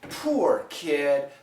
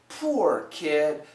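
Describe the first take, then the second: First: The vowel in 'poor' is a long oo glide. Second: The same.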